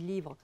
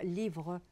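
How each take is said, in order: First: The final r sound is dropped. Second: The final r sound is pronounced. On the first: "les re que je prononce pas" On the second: "je ne dis pas"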